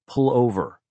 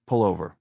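First: Higher, sharp order; no-refusal command. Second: Said in the usual way. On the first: A narrator's reading. Wife cutting off her husband, she-who-must-be-obeyed tone. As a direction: cut in with an order that allows no argument. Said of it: "defcon one tone that brooked no refusal".

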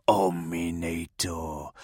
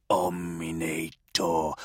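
First: Slow, low voiced demon chant; demon howl. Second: Slow, menacing whispered demon name. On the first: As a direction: intone it like a malevolent demon. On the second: Acted. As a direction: breathe it out like a demon. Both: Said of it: "howl out their names, throaty and malevolent".

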